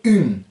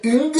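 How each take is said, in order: First: UNE as a nasal u, no hard g; par le nez. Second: UNG with a sounded final g, pitched high; G d'entraînement. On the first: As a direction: send the u of UNE through the nose. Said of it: "Ça passe par le nez". (« une » dit par le nez, sans g) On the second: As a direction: land on a hard g in UNG. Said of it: "vous enlevez le G au dernier moment". (« ung » avec le g final prononcé) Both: Shown as a demonstration.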